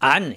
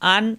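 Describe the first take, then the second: First: It begins with a deep squeeze in the throat. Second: It begins with a light catch in the throat. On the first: The speaker calls it wrong. "এভাবে হবে না।" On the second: The speaker calls it right. "এভাবে হবে।"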